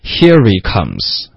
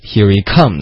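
First: The stress is not on comes. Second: The stress is on comes.

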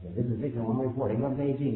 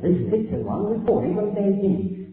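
First: It is spoken in an American accent. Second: It is spoken in a British accent. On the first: "这是美式英语" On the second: "这是英国人"

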